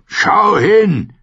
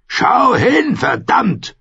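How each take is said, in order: First: High, loud command, punch hin; shouted order. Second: Harder shouted order. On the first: Clegane orders Arya to look at the slaughter, loud shouted command. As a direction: make her look, bellow it. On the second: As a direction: bellow it again, furious. Clegane forcing Arya to look. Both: Acted.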